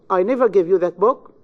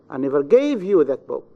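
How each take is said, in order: First: The stress falls on the word I. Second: The stress falls on the word gave. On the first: "In the first sentence, you have the stress on the pronoun I" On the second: "In the third, in the verb gave"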